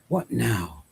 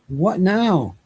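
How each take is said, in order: First: It is said quietly, as if to oneself. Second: It is cried out loudly and distressed.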